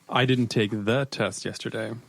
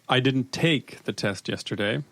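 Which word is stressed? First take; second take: test; take. First: The stress is on "test". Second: The stress is on "take".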